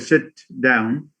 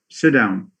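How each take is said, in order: First: The t in sit is fully released. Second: The t in sit is held back. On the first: The speaker calls it wrong. "they don't say" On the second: The speaker calls it right. "They rather say"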